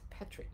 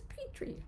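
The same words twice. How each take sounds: First: It is said with a British pronunciation. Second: It is said with an American pronunciation. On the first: "in England it's petri" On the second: "but in America it's petri"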